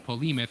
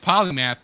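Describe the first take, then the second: First: The last syllable sounds like 'muth'. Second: The last syllable sounds like 'math'. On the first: The speaker calls it wrong. "but he called it the Polemuth, and then he was corrected" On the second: The speaker calls it right. "It's it's Polymath"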